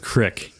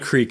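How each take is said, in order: First: The word has a short 'i' vowel, Northeast Pennsylvania style. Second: The word has a long 'ee' vowel.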